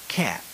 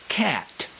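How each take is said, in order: First: The word is softer with a lighter final T. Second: Every sound is pronounced strongly and harshly. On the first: "as they are pronounced when speaking American English" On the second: "as you might learn it in vocabulary practice"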